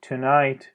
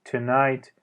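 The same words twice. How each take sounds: Both takes have the same delivery.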